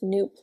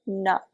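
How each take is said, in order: First: The vowel is long, like in soup. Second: The vowel is short, like in cup. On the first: The speaker calls it right. "pronounced noop like soup" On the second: The speaker calls it wrong. "not nup like cup"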